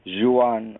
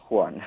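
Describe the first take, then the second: First: "Juan" drawn into two syllables, zhoo-AHN. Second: "Juan" as one syllable, WAHN. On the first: Offering the name to a co-host, "Juan" as zhoo-AHN. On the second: Correcting the name for a co-host, "Juan" as plain WAHN. Two ways of saying the name. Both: Shown as a demonstration.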